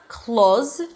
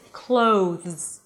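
First: The vowel is a plain O with no glide. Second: The vowel is an O that glides into an oo. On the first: The speaker calls it wrong. "So it's not clothes, all right? You don't want to pronounce it just like a o sound" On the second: The speaker calls it right. "It's clothes. Think like you're adding a little W at the end"

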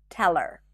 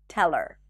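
The two takes are said the same way.

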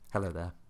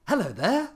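First: It is said quietly. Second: It is said loudly.

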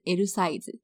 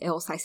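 First: It is pronounced with Japanese syllables. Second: It is pronounced with English sounds. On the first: A shop clerk would understand it. The speaker calls it right. "你一定要讲L size L size，他就会知道你要说什么" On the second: A shop clerk would not understand it. The speaker calls it wrong. "他可能想说，你在讲什么？"

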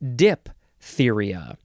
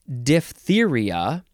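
First: The 'ph' is pronounced as a P sound. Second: The 'ph' is pronounced as an F sound. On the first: The speaker calls it wrong. "a common, not entirely correct pronunciation is diphtheria" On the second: The speaker calls it right. "The official pronunciation is diphtheria"

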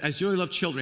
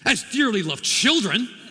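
First: It is said gently and warmly. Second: It is said harshly, like a scolding parent.

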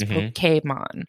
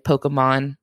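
First: The name is said in a Japanese-style way. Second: The name is said in a plain English way. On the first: This is the authentic, original form of the name. "The E with a little accent over it is Pokemon" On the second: This is the everyday natural form of the name. "Most English speakers just say Pokemon"

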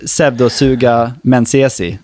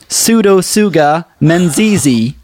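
First: It is said with a Swedish pronunciation. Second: It is said with an American pronunciation. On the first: "du vet det vi säger, pseudosuga menziesi, säger vi" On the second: "det är ju lika rätt uttal som vårt"

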